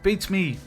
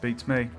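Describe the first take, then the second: First: It is said in a put-on Irish accent. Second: It is said in a plain, everyday accent. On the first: The speaker calls it right. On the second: The speaker calls it wrong.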